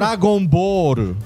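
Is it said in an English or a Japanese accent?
English. Said as in English, ending in an l.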